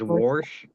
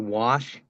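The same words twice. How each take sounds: First: It is said with an added r sound. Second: It is said without an r sound. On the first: "he adds an R into the word, so he says wash" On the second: "my dad doesn't say wash"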